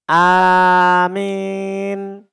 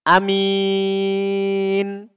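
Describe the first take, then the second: First: The vowel after m leans from a toward i. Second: The first vowel is short; the m is single. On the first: "kita condongkan suara mimnya itu ke fathah ... atau fathah ke kasroh" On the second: "kita pendekkan hamzanya dan ringan mimnya"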